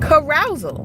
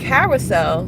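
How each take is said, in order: First: The word ends rhyming with 'arousal'. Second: The word ends with a 'sell' sound. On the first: The speaker calls it wrong. "she was saying carousal" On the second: The speaker calls it right. "instead of saying carousel"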